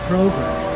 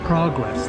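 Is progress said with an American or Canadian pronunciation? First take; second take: Canadian; American. First: The word is pronounced in a Canadian way. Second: The word is pronounced in an American way. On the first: "I just spoke like a Canadian" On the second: "that's how Americans say progress"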